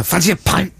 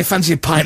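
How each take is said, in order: First: "pint" with a hard, spat final T; "Fancy a pint" with an aggressive "pint"; punched pint. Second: Said in the usual way. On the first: Shown as a demonstration. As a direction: bite off the T in "pint". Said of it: "He'll go, like that". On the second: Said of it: "he doesn't say".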